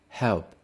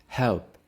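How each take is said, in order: No difference in how they are said.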